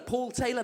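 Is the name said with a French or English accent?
English. The name is said with an English accent.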